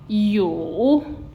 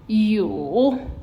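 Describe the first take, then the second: First: The pitch dips low and then rises. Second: The same.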